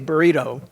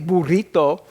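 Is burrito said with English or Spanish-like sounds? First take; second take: English; Spanish-like. First: The word has an English-adapted pronunciation. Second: The word has a Spanish-like foreign pronunciation. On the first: The word has been adapted to English rules. The speaker calls it right. "because that's the way English works" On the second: The word keeps its original foreign form. The speaker calls it wrong. "we don't say burrito"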